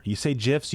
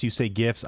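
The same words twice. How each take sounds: First: "gifs" said like "jifs"; soft G in "gifs". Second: "gifs" said with a hard G, as in gift. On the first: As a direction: open "gifs" with a J sound, as in jiffy. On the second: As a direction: open "gifs" like "give". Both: Shown as a demonstration. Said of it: "I know what you're talking about".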